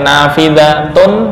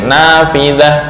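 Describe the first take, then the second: First: The word ends with a full 'tun' ending. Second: The word ends cut short with an 'h'. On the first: This is the base form of the word. "asalnya nafidatun" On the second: This is the form used when stopping. "diwakafkan menjadi nafidah, sukun"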